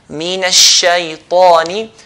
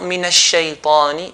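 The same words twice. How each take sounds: First: The t sound is heavy, with full mouth. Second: The t sound is light and thin. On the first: The speaker calls it right. "But min al-shaytani" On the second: The speaker calls it wrong. "And not min al-shaytani"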